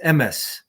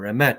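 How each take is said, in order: First: It uses the older, non-modern Hebrew pronunciation. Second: It uses the modern Hebrew pronunciation.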